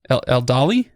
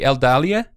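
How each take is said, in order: First: "Eldali" ending in a single "ee"; merged final vowels. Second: "Eldalia" with the last vowel sounded on its own; "Eldalia" said with a sounded final vowel; separate final syllable. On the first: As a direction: say "Eldali" with the final I E run into one ee. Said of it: "you have I E at the end". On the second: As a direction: give the ending of "Eldalia" two syllables, ee-a. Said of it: "that's a separate syllable". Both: Shown as a demonstration.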